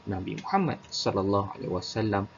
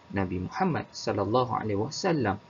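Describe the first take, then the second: The two takes are said the same way.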